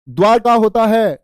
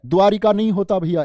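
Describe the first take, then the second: First: द्वारका said slow and loud, "dwaar-ka" with no i; correct spelling stressed. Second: द्वारिका said with an i after र, "dwaa-ri-ka"; द्वारिका voiced as the mistake; wrong form shown. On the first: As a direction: stretch out द्वारका slowly and firmly, no i sound. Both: Shown as a demonstration.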